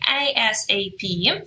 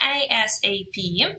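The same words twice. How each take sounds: First: Each letter is said separately. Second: Each letter is said separately.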